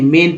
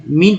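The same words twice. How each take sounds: First: मेन with an "e" vowel, not "ee"; correct reading. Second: मीन with a long ee vowel; wrong reading. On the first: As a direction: say मेन, like "men". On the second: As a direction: read मीन with "ee", like "mean". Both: Shown as a demonstration. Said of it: "नहीं, मेन पढ़ेंगे".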